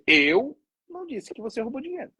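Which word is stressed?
Eu. The stress is on "Eu".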